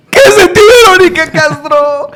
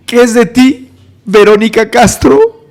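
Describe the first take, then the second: First: Very high, wailing outburst; frantic question. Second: Slightly raised, drawn-out question; measured question. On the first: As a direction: burst out with it, stretching the name. Second take, escalated to wail. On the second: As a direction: ask it intently, holding back the outburst. First take of retold escalating question. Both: Retold or imitated.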